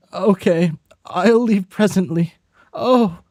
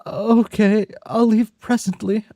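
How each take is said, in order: First: Higher, hesitant polite voice; the voice meant for another character; wrong character voice. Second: High, polite urchin voice; Oliver Twist voice. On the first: A friend agreeing to come pick them up, in the wrong high voice. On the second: A friend agreeing on the phone to leave, in a high orphan voice. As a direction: answer like the timid orphan. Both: Acted. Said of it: "I'm doing the wrong voice".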